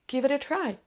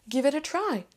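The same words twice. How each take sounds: No difference in how they are said.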